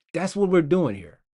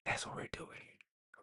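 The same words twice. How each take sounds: First: Said in the usual way. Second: Hushed, voiceless repeat; barely audible whisper. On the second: Pretend. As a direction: whisper it very softly like an echo of yourself. Repeats own line in a whisper.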